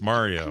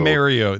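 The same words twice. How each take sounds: First: The name is said with the usual pronunciation. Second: The name is said with a Canadian pronunciation. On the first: The speaker calls it right. "Dad, it's Mario" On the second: The speaker calls it wrong. "That's how Canadians say it"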